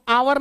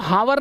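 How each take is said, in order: First: It is said as two syllables without h. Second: It starts with an h sound. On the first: "इसको आवर नहीं बोलते" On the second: "इसको हावर नहीं बोलते"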